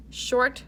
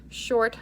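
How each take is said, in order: Both takes have the same delivery.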